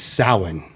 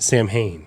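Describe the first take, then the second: First: It is said unlike its spelling, as one word. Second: It is said as two words, Sam and Hain. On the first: The speaker calls it right. "It's Samhain" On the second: The speaker calls it wrong. "It is not Sam Hain"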